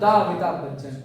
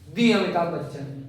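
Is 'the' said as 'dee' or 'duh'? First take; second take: duh; dee. First: 'The' is said with a short 'duh' vowel. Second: 'The' is said with a long 'dee' vowel. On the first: This is the older, usual way. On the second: This is how young people say it now. "Gen Z वाली भाषा में दी बोलते हैं"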